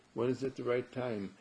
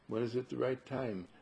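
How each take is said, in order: Both takes have the same delivery.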